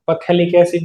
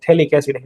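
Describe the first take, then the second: First: A p sound is heard before the th. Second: No p sound is heard before the th. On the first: The speaker calls it wrong. "पथेलिक acid नहीं बोलते इसे" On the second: The speaker calls it right. "पी silent आता है"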